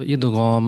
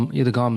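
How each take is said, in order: First: ادغام with Arabic ghain and long ghaam; firm, careful ادغام with gh, not g; Arabic pronunciation. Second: ادغام with a plain hard g, idgaam; ادغام as idgaam, no Arabic ghain; everyday non-Arabic pronunciation. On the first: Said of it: "اس کا جو Arabic میں pronunciation ہے". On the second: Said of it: "نہیں". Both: Shown as a demonstration.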